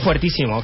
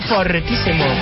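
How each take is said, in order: First: The first syllable has a ue diphthong. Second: The first syllable has a plain o vowel. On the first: "Yo digo fuertísimo" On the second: "es correcto. Es fortísimo"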